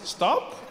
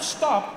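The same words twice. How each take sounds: First: It is said as a gentle suggestion. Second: It is said as a firm command.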